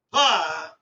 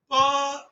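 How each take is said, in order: First: Pa punched louder and dropped low, with a breathy burst; stressed aspirate. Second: Said in the usual way. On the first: Shown as a demonstration. Teacher showing children the stressed Mahaprana form, louder and low. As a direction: stress pa hard as pha. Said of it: "you have to stress the letter". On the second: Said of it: "This is called Alpa Prana".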